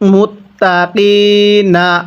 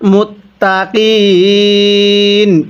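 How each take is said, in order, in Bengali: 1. শব্দটি n-এর পরে একটি স্বরধ্বনি দিয়ে শেষ হয়। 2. শব্দটি n-এর উপরেই শেষ হয়, কোনো স্বরধ্বনি নেই। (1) "নুন জবর না" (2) "ওয়াকফ করলে কিভাবে পড়ব"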